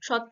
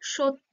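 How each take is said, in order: First: The first vowel is an open 'aw' sound. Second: The first vowel is a closed 'o' sound. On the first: The speaker calls it wrong. "সত্য বলি কি, বলি না" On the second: The speaker calls it right. "এখানে অটা ও হিসাবে ব্যবহার হচ্ছে"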